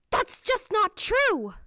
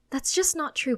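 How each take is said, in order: First: High, loud, drawn-out shout; raised-voice bark. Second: Firm but calmer plea. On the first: Mother startling her child, sharp high shout. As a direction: shout the denial, pitch leaping up. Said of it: "never heard her raise her voice like that". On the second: Mother apologising to scared child, calmer but insistent. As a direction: ease off the shout, still emphatic. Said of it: "she says in a calmer voice". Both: A narrator's reading.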